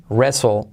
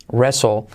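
No difference in how they are said.

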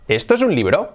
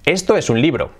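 First: The voice rises at the end, as a question. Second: The voice falls at the end, as a statement.

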